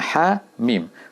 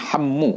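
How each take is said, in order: First: The letters are said as separate letter names. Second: The letters are joined into one word. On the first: The speaker calls it right. "dibaca dengan Hamim" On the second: The speaker calls it wrong. "bukan Hammu"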